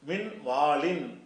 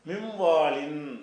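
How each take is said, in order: First: The n is pronounced as a separate clear sound. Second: The n merges into the next sound, nasalized. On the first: The speaker calls it wrong. "இன்னு என்று சொல்லாம" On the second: The speaker calls it right. "மூக்குனால சொல்லணும்"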